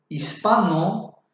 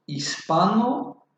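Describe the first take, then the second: First: "Hispano" said slowly, stress on pa; slow stress on syllable. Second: Said in the usual way. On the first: Shown as a demonstration. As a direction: stretch out "Hispano", leaning on pa. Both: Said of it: "Se acentúa en la sílaba pa".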